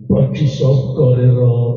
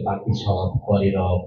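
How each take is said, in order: First: It is recited in a menacing, frightening voice. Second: It is recited in a plain, ordinary voice.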